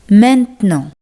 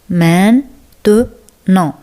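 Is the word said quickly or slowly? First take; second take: quickly; slowly. First: The word is said quickly and casually. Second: The word is said slowly and carefully.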